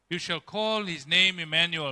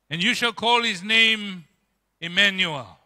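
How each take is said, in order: First: Said in the usual way. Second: Louder, ringing proclamation of the prophecy; proclaimed scripture. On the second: Shown as a demonstration. Preacher proclaiming the prophecy to the congregation, louder. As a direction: announce it to the whole church.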